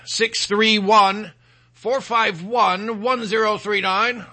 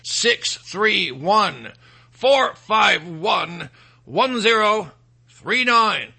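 First: The number is said at normal speed. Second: The number is said slowly.

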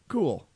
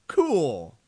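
First: It sounds sarcastic and uninterested. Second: It sounds excited and enthusiastic.

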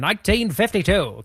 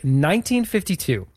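First: It is said in an old-timey radio voice. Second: It is said in his normal voice.

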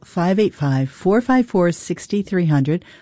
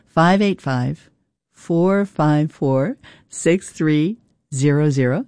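First: The number is said at normal, faster speed. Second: The number is said more slowly.

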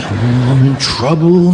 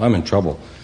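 First: It is said with strong childlike emotion. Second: It is said flatly, without much emotion.

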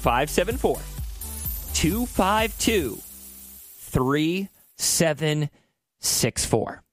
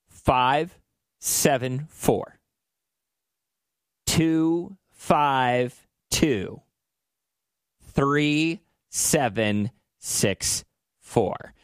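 First: The number is said quickly. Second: The number is said very slowly.

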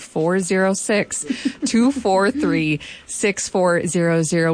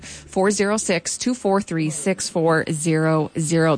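First: It is said slowly and deliberately. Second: It is said at a normal speed.

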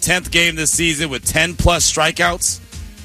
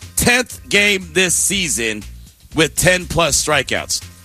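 First: It is said at normal speed. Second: It is said slowly.

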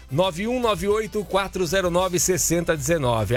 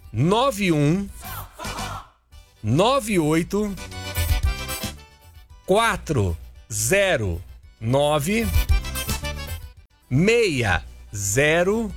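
First: The number is said fast. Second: The number is said slowly.

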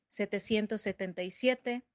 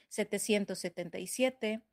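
The two takes are said the same way.

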